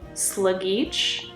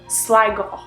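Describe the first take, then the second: First: Every letter is sounded out, American-style. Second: The ending is left silent, giving a shorter word. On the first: The speaker calls it wrong. "phonetically, I would straight up just go Sligeach, but that sounds awful. That sounds very American" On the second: The speaker calls it right. "I'm gonna pull a silent out of nowhere and just go Sligo"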